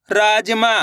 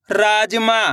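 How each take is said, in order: Both takes have the same delivery.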